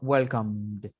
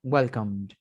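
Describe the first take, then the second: No difference in how they are said.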